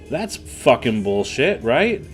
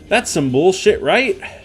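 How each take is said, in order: First: It is said in an angry tone. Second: It is said in a cheerier tone.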